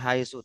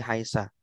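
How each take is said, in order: First: The word ends with an u vowel. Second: The word ends with an a vowel. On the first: The speaker calls it right. "Selalu dibaca haitsu" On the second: The speaker calls it wrong. "tidak haisi haisa"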